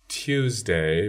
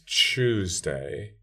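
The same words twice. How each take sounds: First: It begins with a separate t and y sound. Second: It begins with a 'ch'-like sound. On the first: "the t-y sequence" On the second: "entirely morphed over into a post-alveolar approximant"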